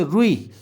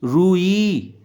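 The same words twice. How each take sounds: First: रुई with a quick short ru. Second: रुई drawn out as roo-ee; long oo. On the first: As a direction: clip the ru before ई in रुई. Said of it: "ये छोटे ऊ की मात्रा है". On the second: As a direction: stretch both vowels of रुई. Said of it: "ये बड़ी ऊ की मात्रा हो गई". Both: Shown as a demonstration.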